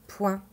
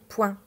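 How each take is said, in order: No difference in how they are said.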